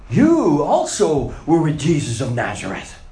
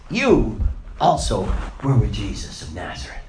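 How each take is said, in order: First: Loud, pointed accusation; accusing servant girl. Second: Said in the usual way. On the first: Acted. Servant girl accusing Peter by the fire, loud and pointed. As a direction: call him out in front of everyone. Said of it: "she looked at him and said". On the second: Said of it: "this girl points to him and says".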